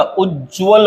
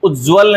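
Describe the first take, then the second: First: उज्ज्वल said slowly as "uj-jval"; doubled ज. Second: उज्ज्वल said as "u-jval"; only one j in उज्ज्वल; single ज. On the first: Teacher correcting, उज्ज्वल with a held double j. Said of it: "उज्ज्वल होता है". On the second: Teacher showing the mistake, उज्ज्वल with a single j. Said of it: "उज्ज्वल नहीं होता". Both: Shown as a demonstration.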